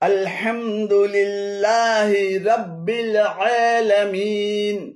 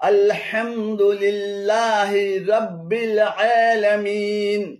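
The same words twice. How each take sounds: No difference in how they are said.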